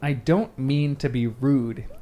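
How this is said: It is said in a put-on Vernon voice.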